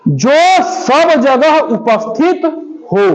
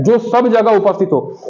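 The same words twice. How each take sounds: First: Word by word, with gaps, very slow; drawn-out reading for note-takers; slow dictation. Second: Said in the usual way. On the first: Shown as a demonstration. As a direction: dictate it slowly, pausing before the last word. Teacher dictates the phrase to define.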